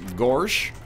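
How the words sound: It is said in a goofy voice with an R sound.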